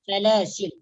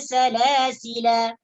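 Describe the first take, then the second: First: The word ends on a bare l consonant. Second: The word ends on a long final vowel. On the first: "opsi yang kedua memang kena matikan" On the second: "yang pertama dengan menetapkan alif"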